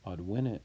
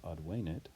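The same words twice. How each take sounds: First: Teacher contrasting present tense, advenit with short E. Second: Advenit with a long "ay" in the middle. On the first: Short-E "Advenit", as in the present tense. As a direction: advenit said with a short, lax middle E. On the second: Teacher marking the perfect tense, advenit with long E. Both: Shown as a demonstration. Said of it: "advenit has the long E".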